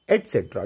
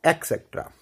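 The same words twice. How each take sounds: First: Low, falling एटसेट्रा with a t; correct pronunciation. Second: एक्सेट्रा with a k, "ek-sektra"; wrong pronunciation. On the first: Teacher answering "क्या बोलेंगे?", correct pronunciation. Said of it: "तो क्या बोलेंगे?". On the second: Teacher contrasting with the right form, wrong pronunciation. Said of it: "not एक्सेट्रा". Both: Shown as a demonstration.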